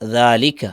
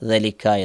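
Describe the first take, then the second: First: The first vowel is drawn out long. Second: The first vowel is kept short. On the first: This is how the word is read aloud. "എന്താണ് വായിക്കുക? ദാലിക്ക" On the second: This is how the word is written. "പക്ഷേ എഴുതിയത് എങ്ങനെയാണ്? ദലിക്ക എന്നാണ്"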